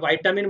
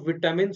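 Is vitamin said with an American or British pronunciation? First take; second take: American; British. First: The first syllable sounds like 'vite', American style. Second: The first syllable sounds like 'vit', British style. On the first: "USA वाले language में" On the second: "British language में"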